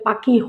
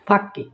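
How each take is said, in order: First: It is said in standard Bengali. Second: It is said in the Sylheti dialect. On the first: "আমরা সিলেটি হলে পাখি হই না" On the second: "আমরা ফাঁকি হই ফাঁকি"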